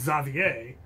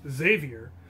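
First: The name is said with a French pronunciation. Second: The name is said with an American pronunciation. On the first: "The French pronunciation is Xavier" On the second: "the standard American pronunciation is just Xavier"

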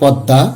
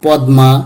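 First: Silent m, doubled nasalized consonant before it. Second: The m sound is clearly pronounced. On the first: The speaker calls it right. "সঠিক উচ্চারণ হবে" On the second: The speaker calls it wrong. "এভাবে উচ্চারণ করে থাকি, কিন্তু উচ্চারণগুলো সঠিক নয়"

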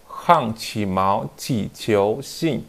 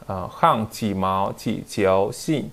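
No difference in how they are said.

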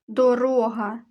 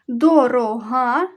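First: The stress is on the middle syllable. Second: The stress is on the last syllable. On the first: It means a road or path. "Другий вислів «дорога», тобто шлях" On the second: It means expensive. "В першому вислові «дорога» про цінність як ознака"

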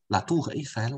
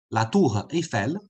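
First: The r runs smoothly into the next vowel. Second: The r is cut off from the next vowel. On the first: The speaker calls it right. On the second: The speaker calls it wrong.

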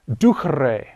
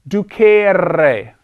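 First: The vowel after the C is short. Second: The vowel after the C is long. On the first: The speaker calls it right. "That E is short" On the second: The speaker calls it wrong. "Do not pronounce it that way"

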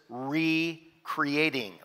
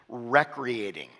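First: The first vowel is a long ee sound. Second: The first vowel is a short eh sound. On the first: It means renewing a creation. "You can also pronounce it recreating, like renewing a creation" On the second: It means rest and leisure. "It's actually the soft E"

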